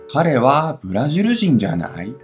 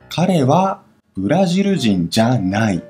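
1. 句尾声调上升。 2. 句尾声调下降。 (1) "这个的话会有猜的感觉，就是他是巴西人吧" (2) "他不是巴西人"

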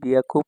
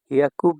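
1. শব্দটি শুরু হয় b ধ্বনি দিয়ে। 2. শব্দটি শুরু হয় h ধ্বনি দিয়ে। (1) "হিয়াকুকে বিয়াকু বলা হয়" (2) "হিয়াকুকে বিয়াকু বলা হয়, আবার পিয়াকুও বলা হয়"

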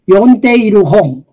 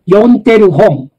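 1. 完全な形の"iru"を発音します。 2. 短縮形では"i"の音が落ちます。

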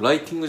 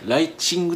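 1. 二番目の音節は'ti'と発音します。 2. 二番目の音節は'chi'と発音します。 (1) "ライティングじゃなくて" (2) "ライチングって言われたんですよ"

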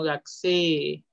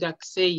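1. La vocal final e es larga. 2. La vocal final e es corta. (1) "sino Gakusei, con doble E" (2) "esto no es Gakusei"

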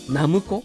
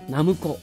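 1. 最初のモーラにアクセントがある。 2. 最初のモーラにアクセントがある。

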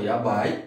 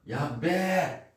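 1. A palavra termina com o ditongo 'ai'. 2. A palavra termina com a vogal 'e' simples. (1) "muitos pronunciam yabai" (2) "mais jovens e homens, yabé, em vez de ser yabai. É como se viesse um E aqui"

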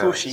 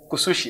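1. La consonante del medio suena como th en inglés. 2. La consonante del medio suena como s. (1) "alguien de la península va a decir" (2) "pero se pronuncia kusushi"

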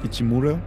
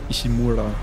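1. Der Name wird mit japanisch klingenden Lauten ausgesprochen. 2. Der Name wird mit typisch deutschen Lauten ausgesprochen.

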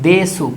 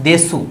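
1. শেষের u স্বরটি স্পষ্টভাবে উচ্চারিত হয়। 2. শেষের u স্বরটি স্পষ্টভাবে উচ্চারিত হয়।

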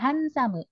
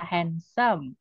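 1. Diucapkan dengan cara Jepang. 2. Diucapkan dengan cara Inggris. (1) "Dimasukin ke bahasa Jepang, jadinya" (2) "Dari bahasa Inggris ya"

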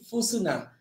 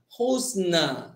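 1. Nama ini diawali dengan bunyi f. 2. Nama ini diawali dengan bunyi h. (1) "Dia jadi Fusna" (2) "saya nak juga bunyi Husna"

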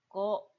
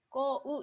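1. 하나의 긴 모음으로 발음해요. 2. 두 개의 따로 된 모음 소리로 발음해요. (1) "꼬 장음이 되는 거예요" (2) "그냥 꼬우 이렇게 하지 않고"

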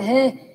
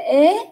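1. Nó bắt đầu bằng âm h. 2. Nó bắt đầu ngay bằng nguyên âm. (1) "Trong bảng chữ cái các em đọc là ha hi hư hề hô, đọc là hê" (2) "Nhưng mà vô câu mình không đọc là hê nha. Mình đọc là ế"

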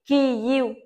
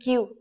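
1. Nói thành hai âm tiết riêng biệt: ki rồi yu. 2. Các âm hòa lại thành một âm tiết duy nhất.

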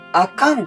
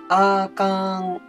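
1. 単語の中で音の高さが上がったり下がったりする。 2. 単語全体で音の高さが変わらない。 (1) "あかんとはならないんですね" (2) "全部同じ音なんですね"

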